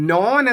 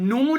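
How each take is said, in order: First: The vowel is a long o sound. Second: The vowel is a long u sound. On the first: This is the older, original pronunciation. "ഇപ്പോ നോൻ എന്നായിരുന്നു" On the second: This is the later pronunciation. "അപ്പന്റെ പേര് നൂൻ എന്നാണ്"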